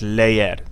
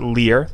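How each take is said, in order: First: The vowels are split into two syllables. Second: It sounds like English 'leer', one syllable. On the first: The speaker calls it right. "it's leer, two syllables" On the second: The speaker calls it wrong. "It's not leer, like in English"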